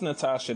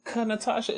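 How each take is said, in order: First: No K sound is spoken before the name. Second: A K sound is spoken before the name. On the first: The speaker calls it right. "The K is silent" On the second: The speaker calls it wrong. "People used to mess her name up"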